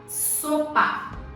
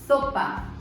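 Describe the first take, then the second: First: The s is a clear hissing sound. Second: The s is lisped, tongue between teeth. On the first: "com a boca desse jeito" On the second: "Se eu coloco a língua entre os dentes"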